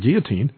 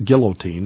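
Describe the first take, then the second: First: The word is said with a French pronunciation. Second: The word is said with an English pronunciation. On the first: "that's how it's pronounced, by the way, because it's a French word" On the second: "People still call it guillotine, and that's okay"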